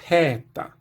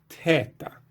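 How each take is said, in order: First: It starts with a t followed by a puff of air. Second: It starts with a t followed by a puff of air.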